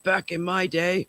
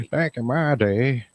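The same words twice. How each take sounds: First: Lightly voiced old man, slow; creaky grandpa complaining. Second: Put-on slow, higher, louder old man; hammed-up cranky grandpa. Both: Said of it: "My old man voice".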